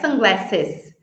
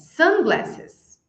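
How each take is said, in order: First: The stress falls on the second part, glasses. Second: The stress falls on the first part, sun. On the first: The speaker calls it wrong. "Não é sunglasses" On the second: The speaker calls it right. "é sunglasses"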